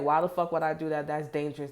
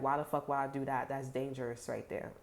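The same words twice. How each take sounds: First: Louder, half-laughing disbelief; mock incredulous shout. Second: Said in the usual way. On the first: Someone scoffing at a risky plan, loud and mocking. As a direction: bark it like the idea is insane. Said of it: "they like". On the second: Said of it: "'Cause they're like".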